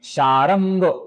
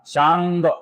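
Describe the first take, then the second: First: The r is pronounced fully with its vowel. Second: The r is pronounced half, without a vowel. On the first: The speaker calls it wrong. "र का पूरा उच्चारण नहीं करना है" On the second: The speaker calls it right. "र का अपूर्ण ही उच्चारण हमें करना है"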